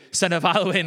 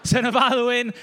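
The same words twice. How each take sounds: First: Said in the usual way. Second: Higher, louder restart on Alwyn; emphatic correction. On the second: Real, not acted. Correcting his slip before the congregation, stressing Alwyn. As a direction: set it right with weight on Alwyn. Corrects himself after a laugh.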